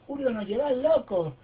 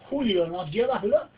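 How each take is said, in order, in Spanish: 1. Se lee con acento argentino. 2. Se lee con el acento propio del hablante.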